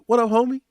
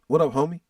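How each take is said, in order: First: It sounds warm and excited. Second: It sounds hostile and confrontational.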